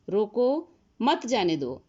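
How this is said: There is a pause right after 'roko'.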